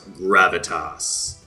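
It is said in an exaggerated, very deep voice.

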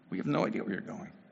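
The line is said with frustrated, exasperated emotion. The speaker is fed up at not understanding. "There was probably frustration, exasperation"

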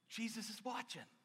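It sounds warm and reassuring, like encouragement. Your good work is noticed and will be rewarded. The speaker calls it right. "What's the tone of verse 8?"

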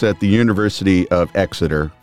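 It is said in an American accent. "Maybe just do it in your normal voice"

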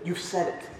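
The words sound soft and gentle. The speaker is offering the listener a chance. The speaker calls it right. "he is reminding Judas that he has a chance at redemption"

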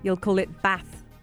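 Bath is said in a northern English accent.

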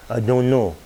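It is said in a strong patois accent. This is how the speaker talked growing up. "I would say, ... I had this accent"

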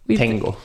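The T is hard, with the tongue forward. The speaker calls it wrong. "The English version. The tongue right towards the front of the mouth"

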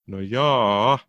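It sounds hesitant and doubtful.

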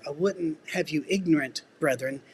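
There is a pause before 'brethren'. The listeners should not lack knowledge. The speaker calls it right. "So we always threw a comma in there"

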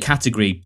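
British style, with the ending vowel reduced. "we would say category probably"

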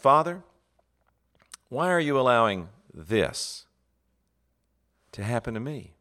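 The stress falls on the word this. The speaker asks about the process and circumstance. The speaker calls it right. "You ask"

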